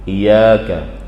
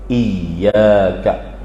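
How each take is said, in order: First: The y sound is short and single. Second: The y sound is held long and doubled. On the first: The speaker calls it wrong. "membacanya dengan tanpa tasydid" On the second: The speaker calls it right. "dengan diberi sabdu atau tasydid pada huruf ya"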